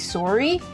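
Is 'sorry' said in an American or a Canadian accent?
Canadian. It is said in a Canadian accent. "Canadians say sorry"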